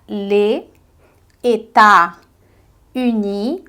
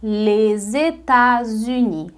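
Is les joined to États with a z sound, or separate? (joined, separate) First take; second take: separate; joined. First: Les and États are said separately, without z. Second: Les joins États with a linking z sound. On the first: "Se eu ler sem a ligação" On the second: "o S do final ali também cola com uni"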